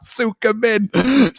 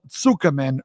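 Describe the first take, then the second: First: Tsukumen drawn out very slowly, each syllable savoured; fancy pronunciation. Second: Said in the usual way. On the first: Shown as a demonstration. Host showing off to ramen heads, slow fancy Tsukumen. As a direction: say Tsukumen slowly and grandly like a connoisseur. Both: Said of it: "getting fancy out here".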